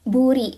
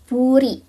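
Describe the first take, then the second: Both takes have the same delivery.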